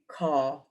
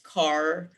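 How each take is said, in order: First: The final r sound is not pronounced. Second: The final r sound is clearly pronounced. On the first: "in British English, it will be car" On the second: "in American, it's car"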